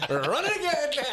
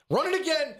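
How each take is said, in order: First: High laughing repeat; cracking up mid-phrase. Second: Laughing high, cracking up; giggling through the words. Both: Real, not acted. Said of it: "You already, run it again".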